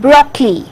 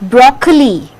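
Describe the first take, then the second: First: The word is said with two syllables. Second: The word is said with three syllables. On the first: The speaker calls it right. "Two syllable sound" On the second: The speaker calls it wrong. "It is not"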